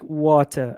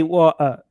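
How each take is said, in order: First: Imitating London "water"; London pronunciation. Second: "water" with the T dropped; Leeds pronunciation. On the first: Student quoting British friend on London speech, London pronunciation. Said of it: "in London, people would say". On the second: Retold or imitated. Student quoting British friend on Leeds speech, dropped T. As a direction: swallow the T in "water", Leeds-style. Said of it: "in Leeds, they would say".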